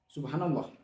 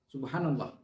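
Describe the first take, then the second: The two takes are said the same way.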